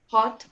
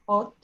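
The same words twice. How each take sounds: First: The vowel is not a pure O sound. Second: The vowel is a pure O sound. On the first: The speaker calls it right. "You say hot" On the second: The speaker calls it wrong. "You don't exactly say O. You don't say hot"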